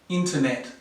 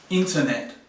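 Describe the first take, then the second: First: The last vowel is a short e sound. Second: The same.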